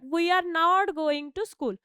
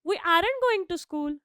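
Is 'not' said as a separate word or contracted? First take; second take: separate; contracted. First: 'Are' and 'not' are said as separate words. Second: 'Are' and 'not' are merged into one word.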